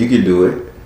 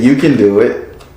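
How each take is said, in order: First: It is said in the speaker's normal accent. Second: It is said in a put-on Mexican accent. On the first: "He just said" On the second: "not in my Mexican voice"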